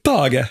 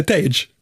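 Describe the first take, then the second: First: Tage as two syllables, TAH-geh; Swedish pronunciation. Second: Tage as one syllable, "tayj"; English pronunciation. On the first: Host amused by player's name, Swedish TAH-geh for Tage. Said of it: "Jag tycker det är jättefestligt". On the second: Host contrasting the player's real name, English "tayj" for Tage. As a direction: say Tage the American way. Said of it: "utan han heter Tage Thompson". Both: Shown as a demonstration.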